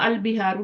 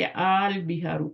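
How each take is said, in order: First: The first vowel is short. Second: The first vowel is long. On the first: The speaker calls it wrong. "अल बिहारू नहीं पढ़ते" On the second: The speaker calls it right. "बल्कि आल बिहारू पढ़ते हैं"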